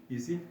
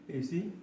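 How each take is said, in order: Both takes have the same delivery.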